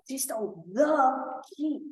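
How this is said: The stress is on the.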